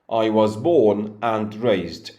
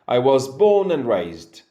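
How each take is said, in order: First: The word 'and' is pronounced fully and clearly. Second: The word 'and' shrinks to a nasal 'n'. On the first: This is how a learner would say it. "they completely pronounce the connective word and" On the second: This is how a native speaker would say it. "the and becomes n and the sound comes out of the nose"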